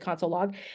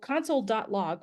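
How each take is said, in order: First: The word dot is left out between words. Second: The word dot is spoken between both words. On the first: This is the casual everyday way to say it. "I say console log" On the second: This is the formal way to read the code. "would be the proper way to say this"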